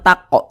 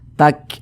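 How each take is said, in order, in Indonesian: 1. Huruf 'k' di akhir memantul dengan gema. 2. Huruf 'k' di akhir dilepas dengan napas mengalir. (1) "jangan tak kok, jangan salah... bukan qalqalah" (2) "ada napas yang mengalir, seperti memercik"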